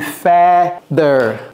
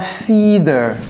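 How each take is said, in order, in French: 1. La première voyelle est la même que celle de 'weather'. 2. La première voyelle est différente de celle de 'weather'. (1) "c'est feather. Comme weather" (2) "ce n'est pas feather"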